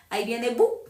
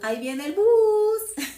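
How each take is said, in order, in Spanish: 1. Es cortada, con los sonidos finales omitidos. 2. Es alargada, con cada sonido pronunciado. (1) "el bus más corto lo tienen los costeños" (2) "el bus más largo lo tenemos nosotros los huilenses"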